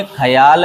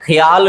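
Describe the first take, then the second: First: ख्याल opened into kha-yaal; correct pronunciation. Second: ख्याल run together with a y glide, khyaal; wrong pronunciation. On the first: Teacher correcting it, ख्याल said as kha-yaal. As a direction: say ख्याल with a full first vowel, kha-yaal. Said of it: "ख्याल है". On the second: Teacher showing the mistake, ख्याल said as khyaal. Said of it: "नहीं है". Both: Shown as a demonstration.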